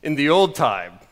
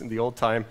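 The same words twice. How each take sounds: First: "in the old time" in a put-on Scottish accent; mock Scottish accent; old Scottish pastor. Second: Said in the usual way. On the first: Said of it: "this old Scottish pastor said".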